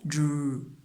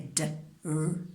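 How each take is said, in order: First: The two sounds are joined into one sound. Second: The two sounds are said apart with a break. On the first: The speaker calls it right. "We say dr" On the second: The speaker calls it wrong. "We don't say"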